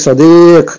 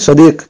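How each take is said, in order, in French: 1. La voyelle est allongée. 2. La voyelle est brève. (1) "Là, pareil" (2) "S'il n'y aurait pas eu le ya, j'aurais dit sadiq"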